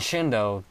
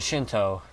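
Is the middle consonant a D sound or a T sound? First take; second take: D sound; T sound. First: The middle consonant is a D sound. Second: The middle consonant is a T sound. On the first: The speaker calls it wrong. "I hate it when Americans use a D sound instead of a T sound" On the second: The speaker calls it right. "it's a T, it's a freaking T"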